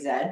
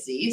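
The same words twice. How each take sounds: First: The letter is said the Canadian way, zed. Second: The letter is said the American way, zee.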